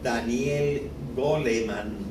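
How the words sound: The name is pronounced with Spanish sounds.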